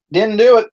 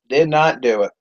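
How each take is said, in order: First: High, loud admission; emphatic admission. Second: "Did not do it" spelled out word by word, falling; deliberate restatement. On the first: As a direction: punch it out high on DO in "Didn't do it". Admits failure, then restates it. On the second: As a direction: stress DID in "Did not do it", then let it fall. Restates the admission uncontracted. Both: Real, not acted.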